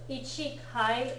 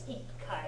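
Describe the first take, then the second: First: The word begins with a full 'ichi' before 'kai'. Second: The word begins with 'i' and a doubled k sound. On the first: The speaker calls it wrong. "is not correct" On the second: The speaker calls it right. "it's ikai"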